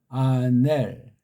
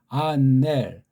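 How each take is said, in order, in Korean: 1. 끝에 닫는 자음 'l'이 와요. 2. 끝에 닫는 자음 'l'이 와요.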